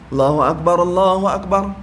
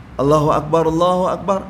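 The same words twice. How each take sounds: Both takes have the same delivery.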